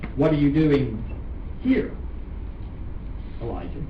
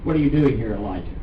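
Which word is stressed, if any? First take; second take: here; none. First: The word "here" carries the main stress. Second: It is said flat with no word stressed. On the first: "the way that I think it's correctly inflected" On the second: "I didn't really inflect it at all"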